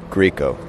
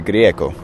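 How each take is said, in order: First: The name is said the American way. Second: The name is said the Latin American Spanish way.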